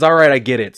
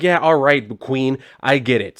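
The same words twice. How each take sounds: First: Said in the usual way. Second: Sassy, dismissive "Queen, I get it" with a slow drawn-out Queen; mock-diva eye-roll; sassy brush-off. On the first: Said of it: "he didn't say Queen". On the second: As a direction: roll your eyes and wave them off, sassy. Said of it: "well, he didn't say Queen, I'm throwing that in there".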